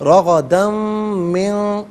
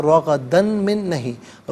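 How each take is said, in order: First: رغدن من slow and louder, the noon of من hummed nasally; ikhfa. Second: Said in the usual way. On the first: Shown as a demonstration. Teacher shows the right recitation of رغدن من, slow and nasal. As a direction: draw out رغدن من with a nasal hum.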